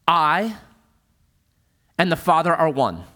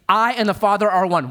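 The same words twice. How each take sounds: First: Said in the usual way. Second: "I" lifted and leaned on, the rest falling; stress on I. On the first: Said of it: "Jesus says this". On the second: Shown as a demonstration. Preacher repeats Jesus's words to the church with weight on "I". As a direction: lean hard on "I", then let it fall. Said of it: "Jesus is saying".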